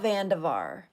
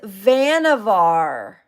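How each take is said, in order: First: The middle of the name has a d sound. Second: The middle of the name has no d sound. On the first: The speaker calls it wrong. "not Vandevar" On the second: The speaker calls it right. "it's Vannevar"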